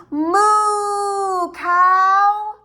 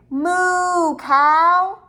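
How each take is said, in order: First: Louder and higher called moo; even louder moo. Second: Called out moo. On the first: Teacher leads the kids in an even louder moo to the cow. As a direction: really belt out the moo to the cow. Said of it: "Let's do it even louder". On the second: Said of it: "Let's say". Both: Shown as a demonstration.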